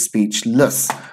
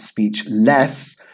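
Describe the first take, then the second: First: The last syllable has a reduced schwa vowel. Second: The last syllable has a full vowel. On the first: The speaker calls it right. "we have that schwa sound here" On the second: The speaker calls it wrong. "It's not speechless"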